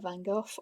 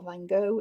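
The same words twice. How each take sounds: First: The name is said the British way. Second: The name is said the American way.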